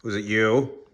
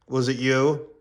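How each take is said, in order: First: Loud, accusing demand to the dog; stern loud question. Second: Higher, louder accusing repeat; stern loud question. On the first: To the guilty dog, a loud accusing question. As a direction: bark the question at the culprit. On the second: Owner grilling the dog, louder accusing question. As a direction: demand it again, pressing hard. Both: Real, not acted.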